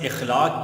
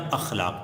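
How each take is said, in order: First: The word begins with an 'i' vowel. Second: The word begins with an 'a' vowel. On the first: The speaker calls it wrong. "हम आम तौर पर यह लफ्ज़ इखलाक कहते हैं, सुनते हैं, गलत है" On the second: The speaker calls it right. "मैंने यहाँ हमज़ा पर ज़बर को वाज़े किया है"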